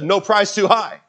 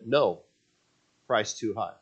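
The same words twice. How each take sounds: First: There is no pause after the word no. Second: There is a pause after the word no. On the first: Any price is acceptable. "he forgot to put the comma in there" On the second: The price is too high, so the answer is no. "he said, no, price too high"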